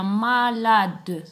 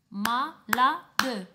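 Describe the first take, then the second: First: Said in the usual way. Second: Malade split into three beats; clapped syllables. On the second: Shown as a demonstration. Teacher counting the syllables of Malade aloud. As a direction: say ma-la-de with a clap on each beat. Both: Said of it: "je compte les syllabes".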